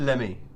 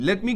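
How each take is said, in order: First: The words are reduced and blended into one. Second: Both words are said fully and separately. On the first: "हम बोलते हैं लेमे" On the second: "लेट मी को"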